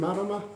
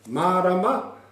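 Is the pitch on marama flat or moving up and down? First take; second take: flat; up and down. First: The pitch stays flat through the word. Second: The pitch moves up and down through the word. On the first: It is just a plain word in a sentence. The speaker calls it wrong. "You're not saying, have you fellas seen marama?" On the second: It asks whether the listener understands. The speaker calls it right. "It's like you're asking the question. ... It's going up and down"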